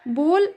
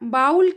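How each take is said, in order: First: The vowel sounds like 'oh' in go. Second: The vowel sounds like 'ow' in cow. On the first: The speaker calls it right. "सही pronunciation है" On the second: The speaker calls it wrong. "ये गलत pronunciation है"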